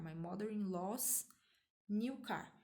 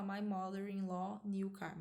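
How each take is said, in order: First: "mother-in-law's" ending in a clear hissed s; right way with 's. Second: "mother-in-law" with no final s sound before "new"; wrong way, no 's. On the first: Teacher shows the right form, s hissed on "mother-in-law's". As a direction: hiss the s on "mother-in-law's" before "new car". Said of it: "você dá aquele tss". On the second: Teacher shows the wrong form, "mother-in-law" said bare. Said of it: "você não pode falar". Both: Shown as a demonstration.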